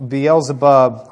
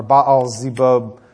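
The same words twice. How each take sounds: First: Beelzebub said slowly as bee-EL-zuh-bub; English form Beelzebub. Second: Baal Zebub slowly, as bah-ahl zeh-BUB; original form Baal Zebub. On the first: Preacher gives our word from the Hebrew, Beelzebub as bee-el-zuh-bub. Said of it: "Beelzebub is our word we get from it". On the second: Preacher gives the older name, Baal Zebub as bah-ahl zeh-bub. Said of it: "our word we get from it". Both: Shown as a demonstration.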